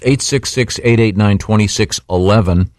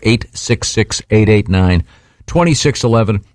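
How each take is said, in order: First: The number is read at a normal pace. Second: The number is read more slowly.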